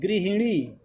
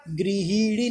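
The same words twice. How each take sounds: First: गृहिणी said gri-hi-nee; short i vowel. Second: गृहिणी said gri-hee-nee; wrong long vowel. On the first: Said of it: "अ पे छोटी की मात्रा". (सही उच्चारण, गृहिणी में छोटी "हि") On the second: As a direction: stretch the "hi" of गृहिणी. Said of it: "गृहिणी नहीं". (गलत उच्चारण, गृहिणी में "ही" खींचकर) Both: Shown as a demonstration.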